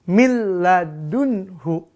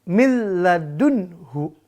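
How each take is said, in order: Both takes have the same delivery.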